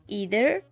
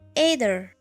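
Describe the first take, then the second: First: The first vowel sounds like 'ee'. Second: The first vowel sounds like 'eye'.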